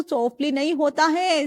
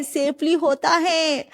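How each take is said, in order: First: Said in the usual way. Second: "safely" धीरे और साफ़ बोलें; सेफली शब्द को सुधार कर ज़ोर से कहें. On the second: Shown as a demonstration. (सही शब्द "सेफली" पर धीमा ज़ोर)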